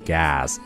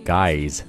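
First: The vowel is a wide open a sound. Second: The vowel glides like the word guys. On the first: The speaker calls it right. "而是gas 大口的a" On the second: The speaker calls it wrong. "千万不要读成guys"

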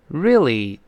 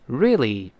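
First: It is said quickly with the middle sounds dropped. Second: It is said quickly with the middle sounds dropped.

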